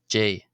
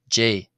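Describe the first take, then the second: First: The final consonant is a soft breathy h-sound. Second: The final consonant is a soft breathy h-sound.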